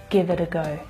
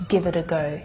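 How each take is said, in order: No difference in how they are said.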